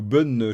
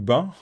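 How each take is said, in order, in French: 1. Le nom se dit avec une voyelle à l'anglaise. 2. Le nom se dit avec une voyelle à la française. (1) "je sais pas comment on dit" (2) "si on prononce en français"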